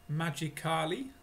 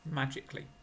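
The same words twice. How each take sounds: First: The ending is said as full separate syllables. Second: The ending is reduced to a short clee. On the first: The speaker calls it wrong. "No, thank you" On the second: The speaker calls it right. "Curly. Clee"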